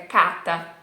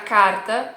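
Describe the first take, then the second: First: The R is left out entirely. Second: The R sounds like a São Paulo or southern R. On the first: The speaker calls it wrong. "Você vai tirar o R? ... senão fica cata" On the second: The speaker calls it right. "parece um sotaque de São Paulo, parece um sotaque do sul do Brasil"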